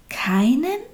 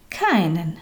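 First: KEINEN rising high in disbelief; disbelieving question. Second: KEINEN stated with a falling, settled tune; firm repetition. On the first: Little soul to God, hardly believing it, incredulous KEINEN. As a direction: ask KEINEN as if hardly believing it, pitch climbing. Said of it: "konnte kaum glauben, was Gott da sagte". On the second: God confirming to the little soul, firm falling KEINEN. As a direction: repeat KEINEN as a calm certainty, pitch going down. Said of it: "wiederholte Gott". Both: A narrator's reading.

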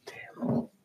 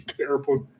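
First: Whispered under the breath; hushed whisper. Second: Said in the usual way. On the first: Shown as a demonstration. Repeats word, second whispered.

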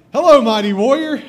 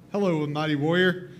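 First: Loud, high call of hello; the angel hails a frightened Gideon, loud and high; booming angel greeting. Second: Said in the usual way. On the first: Acted. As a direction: boom it out like a herald angel. Angel greets hiding Gideon loudly. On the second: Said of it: "That wake you up?".

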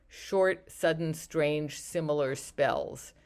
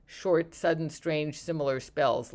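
First: "short, sudden, strange, similar spells" said slowly, each word stressed; slow, spelled-out phrase. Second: Said in the usual way. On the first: Shown as a demonstration. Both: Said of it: "we use the phrase".

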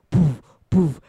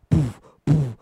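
Both takes have the same delivery.

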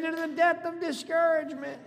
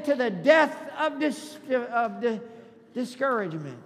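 First: High, fluent preacher's cry; rallying cry. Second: Loud start, stumbling on the last word; faltering rallying cry. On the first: Pastor getting congregation to repeat the slogan, high rallying cry. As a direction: raise the pitch and deliver it in one run. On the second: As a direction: call it out loudly, tripping then recovering. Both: Shown as a demonstration. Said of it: "Say it again".

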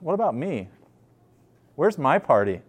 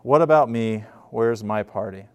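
First: Wounded complaint. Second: Louder demand. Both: Retold or imitated. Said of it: "He says".

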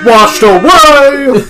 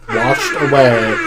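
First: High, loud, stretched-out wail; over-dramatic echo shout; hammed-up cry. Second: Said in the usual way. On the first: A narrator's reading. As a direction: belt it out, dragging the last word. Repeated as a mock dramatic cry.

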